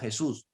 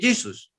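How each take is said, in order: First: The name has its Spanish pronunciation. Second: The name has its English pronunciation. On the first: "no, Jesús" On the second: "puedes decir Jesus en inglés"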